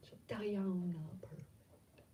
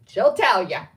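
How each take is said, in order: First: Soft, trailing-off aside; muttered repeat. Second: Loud, punchy exclamation; calling out. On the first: Admitting she is not perfect, muttered softly. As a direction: say it under your breath. Repeats it to herself, much softer. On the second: Naming Nikki as witness, called out loudly. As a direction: belt it out jokingly. Calls out friend as witness, then mutters. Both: Real, not acted.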